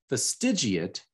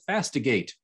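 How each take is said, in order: First: The vowel before the final 'ate' is pronounced. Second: The vowel before the final 'ate' is dropped. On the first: The speaker calls it right. "now that we know how to say it" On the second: The speaker calls it wrong. "my brain ignored the second I in fastidiate and I pronounced it fastigate"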